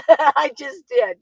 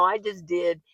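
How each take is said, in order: First: Slow, laughing repeat. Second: Said in the usual way. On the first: Real, not acted. To the viewer about raising four children, chuckling. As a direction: let a laugh carry the words, slowly. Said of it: "repeat of I just did". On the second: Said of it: "I just did, laughing repeat".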